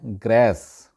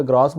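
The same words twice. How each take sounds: First: ग्रेस with a flat "æ", graess; native English pronunciation. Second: ग्रास with a long "aa", graas. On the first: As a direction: say ग्रेस with the vowel of "cat". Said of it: "गोरे जो है इसको बोलते हैं". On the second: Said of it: "वहाँ पे ग्रास बोला जाता है". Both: Shown as a demonstration.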